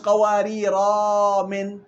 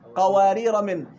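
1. تأتي ألف مدّ بعد «قوارير» قبل «من». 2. تتصل «قوارير» بـ«من» دون حركة زائدة.

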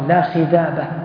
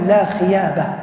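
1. في الكلمة الثانية صوت dh في الوسط. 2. في الكلمة الثانية صوت y في الوسط. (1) "بعضهم يقول لا خذابة" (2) "أثر ذلك في نطقه، فكان يقول لا خيابة"

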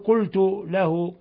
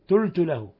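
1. الحرف الأول هو القاف الغليظة. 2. الحرف الأول هو صوت الطاء. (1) "إذا أراد أن يقول قلت له" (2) "فيجعلها طاء"

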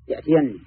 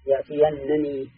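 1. صوت النون المشددة الواحد يحمل حركة الكسرة. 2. نون مشددة مع فتحة، ثم نون أخرى مع كسرة. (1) "بنون مشددة مكسورة" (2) "مفتوحة يليها نون مكسورة... هذا القراءة الثانية"

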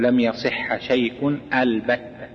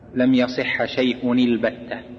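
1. تُنطق همزة واضحة في أول albatta. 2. تُحذف الهمزة وتتصل الكلمتان. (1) "تقول ... قطع" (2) "ما تقول مثلا"

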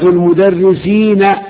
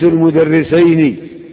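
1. تأتي بعد النون الأخيرة حركة الفتح. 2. تأتي بعد النون الأخيرة حركة الكسر. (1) "النون مفتوحة" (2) "النون مكسورة"

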